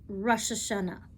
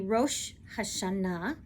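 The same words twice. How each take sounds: First: It is said with an Eastern European Jewish pronunciation. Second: It is said with a modern Hebrew pronunciation. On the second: "in modern Hebrew today, we say"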